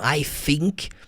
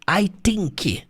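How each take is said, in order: First: The word think begins with an F sound. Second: The word think begins with a T sound. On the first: "pronunciam com som de F mesmo" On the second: "falando com som de T"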